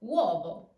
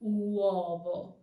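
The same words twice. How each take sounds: First: Uovo with U glided into O; correct uovo, W glide. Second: Uovo with U drawn out separately; wrong uovo, full U. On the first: Teacher showing learners correct uovo with W glide. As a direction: say uovo with U as a quick W. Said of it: "weak U turns into a W sound". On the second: Teacher showing learners the wrong uovo with full U. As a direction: stretch the U apart from O in uovo. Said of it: "So not uovo, but uovo". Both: Shown as a demonstration.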